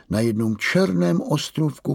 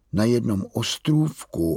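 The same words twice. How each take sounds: First: Slovo „černém“ zdůrazněné a výše; zvýrazni „černém“ vyšším hlasem; důraz na černém. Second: Said in the usual way. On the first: A narrator's reading. (tatínek zdůrazní „černém“ vyšším hlasem)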